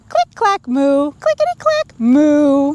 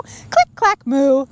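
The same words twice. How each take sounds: First: Chanted sound words. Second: Said in the usual way. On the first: Shown as a demonstration. Reader leading children in the typewriter chant, sing-song. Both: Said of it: "Can you say it too?".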